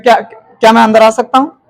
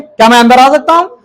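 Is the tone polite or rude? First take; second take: polite; rude. First: It is asked in a polite, gentle tone. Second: It is asked in a rude, harsh tone.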